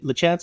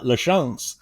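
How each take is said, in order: First: The name is pronounced the plain English way. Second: The name is pronounced the Canadian way. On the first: The speaker calls it right. "is that how you say it" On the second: The speaker calls it wrong. "it's not Canadian, it's not LaChance"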